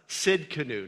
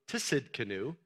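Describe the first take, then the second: First: The opening T sound is silent. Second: The opening T sound is clearly pronounced. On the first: The speaker calls it right. "I think the T is supposed to be silent" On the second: The speaker calls it wrong. "some people pronounce it Tsidkenu"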